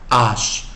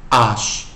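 Both takes have the same delivery.

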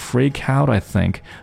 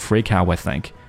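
First: The T is briefly stopped before I. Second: The T is dropped entirely. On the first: "理论上应该是 freak out I think" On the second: "但是他都是 freak out I think"

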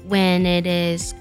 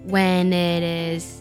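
Both takes have the same delivery.

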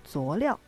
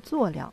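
First: The second syllable carries a full tone. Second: The second syllable is light and toneless. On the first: "会把它念成叫做佐料，其实也都是可以的" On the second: "它的后边的这个音呢是念轻声的"

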